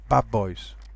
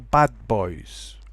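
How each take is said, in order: First: The word bad ends with a b sound. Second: The word bad ends with a d sound.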